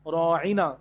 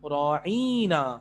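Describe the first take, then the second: First: The vowels are said short and plain. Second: A vowel is stretched out longer. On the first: Please pay attention to us. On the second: An insult calling someone a shepherd.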